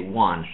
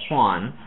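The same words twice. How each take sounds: First: The word starts with no h-like sound. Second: The word starts with a breathy h-like sound. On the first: The speaker calls it wrong. "they drop the H completely" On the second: The speaker calls it right. "instead of saying Juan"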